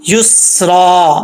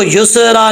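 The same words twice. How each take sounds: First: युसरा slowly with held s and long final aa; correct seen. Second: युसरा said as "yu-se-ra"; wrong qalqala. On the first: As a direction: hold "स" without a bounce, stretch the end of युसरा. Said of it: "अब इसको युसरा नहीं पढ़ना". (युसरा में सीन जमाकर, बिना कलकला) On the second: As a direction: slip a short vowel after the "स" in युसरा. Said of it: "ये मिस्टेक है". (युसरा में सीन पर गलत कलकला) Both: Shown as a demonstration.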